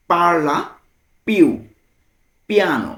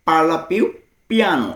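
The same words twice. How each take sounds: First: "Parla ... più ... piano", long pauses between words. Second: Said in the usual way. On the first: Shown as a demonstration. Teacher translating speak a little slower, word by word. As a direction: model "Parla più piano" one isolated word at a time. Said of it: "ভেঙে ভেঙে".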